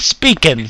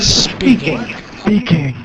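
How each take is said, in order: First: The word ends without a g sound. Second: The word ends with a clear g sound. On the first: "you put a G in back of the speaking" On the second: "and you get speaking"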